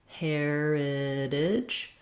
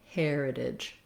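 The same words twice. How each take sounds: First: The word is said slowly. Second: The word is said at normal speed. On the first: "practicing it slowly" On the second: "speed it up"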